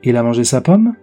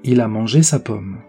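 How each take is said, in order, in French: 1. La mélodie monte à la fin, comme une question. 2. La mélodie descend à la fin, comme une simple affirmation. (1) "cela devient immédiatement une phrase interrogative puisque la mélodie devient ascendante" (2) "C'est une phrase déclarative. On la remarque puisque la mélodie descendante indique la fin de la phrase"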